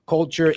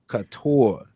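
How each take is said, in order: First: The name is said with an L, like 'culture'. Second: The name is said without an L, like 'couture'. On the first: The speaker calls it wrong. "did I pronounce that wrong again?" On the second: The speaker calls it right. "It's couture"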